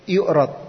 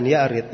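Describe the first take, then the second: First: The first syllable has the vowel u. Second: The first syllable has the vowel a. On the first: The Quran is presented to the Prophet. "boleh juga dibaca yu'rad" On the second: Jibril recites the Quran to the Prophet. "boleh dipathah dikatakan ya'rid"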